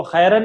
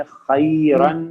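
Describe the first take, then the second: First: खैरन said the way students wrongly read it, with a quick careless ending; wrong pronunciation. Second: खैरन said slowly and carefully with a clear Arabic kh and full ending; correct Arabic pronunciation. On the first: Teacher showing students the wrong reading, casual. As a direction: demonstrate the mistaken खैरन casually. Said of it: "खैरन नहीं पढ़ेंगे इसको". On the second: Teacher modelling the correct Quran reading for students, slow and careful. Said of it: "पढ़ेंगे खैरन". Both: Shown as a demonstration.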